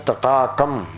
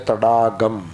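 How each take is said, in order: First: The middle consonants are voiceless t and k. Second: The middle consonants are voiced d and g. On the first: This is the standard pronunciation. "You have to say Tatakam" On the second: This is how people in Tamil Nadu say it. "they say Tadagam. Ta becomes Da, Ka becomes Ga"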